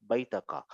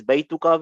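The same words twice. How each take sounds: First: "Baitaka" with an a vowel before ka; changed case vowel. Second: Said in the usual way. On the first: Shown as a demonstration. Teacher shows the change Inna makes, "Baitaka" with ta before ka. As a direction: say "Baitaka", ta in place of tu. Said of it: "this Baituka will become". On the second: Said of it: "Because of Inna, this Baituka will become".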